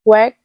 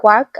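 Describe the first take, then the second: First: "Work" with a clear r-coloured vowel, "wurk"; adapted "Work", rhotic vowel instead of "wok"; local pronunciation. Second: "work" with an open "wok" vowel; Kenyan pronunciation. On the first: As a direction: say "Work" their way, sounding the r. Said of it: "the way they can". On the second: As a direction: say "work" the Kenyan way, near "walk". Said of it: "in Kenya we say work". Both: Shown as a demonstration.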